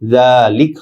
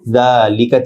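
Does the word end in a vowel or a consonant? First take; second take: consonant; vowel. First: The word ends on the bare consonant. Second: The word ends with a final vowel.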